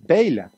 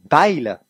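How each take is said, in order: First: The name is said in standard French. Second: The name is said in southwestern French.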